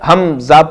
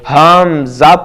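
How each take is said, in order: First: The vowel after the h is short. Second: The vowel after the h is long. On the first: The speaker calls it right. "हमजा पढ़ना दुरुस्त है" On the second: The speaker calls it wrong. "हा के बाद अलिफ का अजाफा करना, लंबा करके पढ़ना, खींच करके पढ़ना गलत है"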